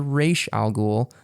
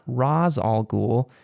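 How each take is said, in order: First: The first word does not sound like 'Raz'. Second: The first word is said as 'Raz'. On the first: This is how the creator says the name. The speaker calls it right. "I said Ra's al Ghul" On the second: This is how the films say the name. The speaker calls it wrong. "they pronounced it Raz"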